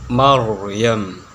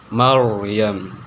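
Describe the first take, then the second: Both takes have the same delivery.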